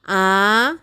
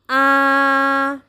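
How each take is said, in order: First: The pitch rises throughout. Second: The pitch stays level throughout. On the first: "Nada kedua bunyinya naik" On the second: "Nada pertama bunyinya datar"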